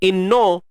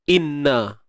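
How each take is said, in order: First: The final vowel is rounded, like 'o'. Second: The final vowel is open, like 'a'. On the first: The speaker calls it wrong. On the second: The speaker calls it right.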